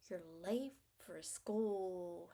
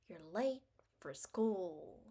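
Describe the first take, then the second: The two takes are said the same way.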